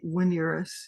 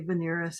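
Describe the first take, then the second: First: It is said with classical Latin pronunciation. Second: It is said with medieval Latin pronunciation. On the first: "have studied classical Latin, I know they would say Veneris" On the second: "medieval Latin would say Veneris"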